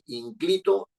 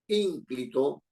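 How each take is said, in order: First: The stress is on the second syllable. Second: The stress is on the first syllable. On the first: The speaker calls it wrong. "no estoy diciendo ni inclito" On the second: The speaker calls it right. "está en la anterior a la penúltima"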